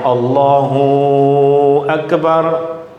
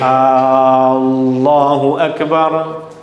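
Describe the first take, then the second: First: The hu sound is held long. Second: The opening A sound is held long. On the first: "Hu tak boleh dibaca panjang" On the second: "A tak boleh dibaca panjang"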